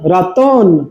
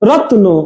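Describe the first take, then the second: First: A vowel sound comes between t and n. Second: The t joins straight onto n, no vowel. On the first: "তটা ওয়ের মতো হচ্ছে" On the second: "এটা খণ্ড উচ্চারণ হচ্ছে তয়ের"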